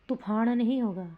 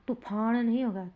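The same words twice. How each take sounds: Both takes have the same delivery.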